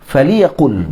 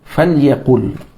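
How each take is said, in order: First: An i vowel comes between the l and y. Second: The l runs straight into y, no vowel. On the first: "Boleh tak baca dengan kasrah? Boleh" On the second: "disukunkan lamul amr fil awal"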